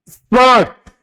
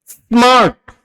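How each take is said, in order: No difference in how they are said.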